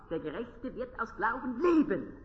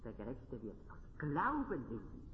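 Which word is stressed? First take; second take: leben; Glauben. First: The stress falls on the word leben. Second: The stress falls on the word Glauben. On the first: It is about how the believer lives. "dort ist die Betonung darauf" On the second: It is by faith, not by works. "nicht durch Werke"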